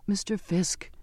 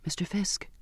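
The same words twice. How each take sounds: First: Higher, small pleading voice; begging. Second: Soft, hesitant near-whisper. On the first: Humbled passenger appealing to the cook, begging. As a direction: beg him, keeping the voice small. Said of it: "I begged". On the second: Passenger timidly trying to get the cook's notice, whispered. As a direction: call his name softly, nearly whispering. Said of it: "I whispered". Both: A narrator's reading.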